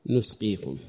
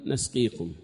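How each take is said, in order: First: "نسقيكم" with a short u after the nun; damma on the nun. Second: "نسقيكم" with a short a after the nun; fatha on the nun. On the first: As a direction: say "نسقيكم" as nusqikum. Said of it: "بضمها". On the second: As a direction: say "نسقيكم" as nasqikum. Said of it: "فتح النون". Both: Shown as a demonstration.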